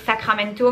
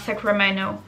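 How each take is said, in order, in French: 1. Le t après le n se prononce clairement. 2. Le t après le n ne se prononce pas. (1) "un local va pas dire Sacramento" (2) "ça devient Sacramento"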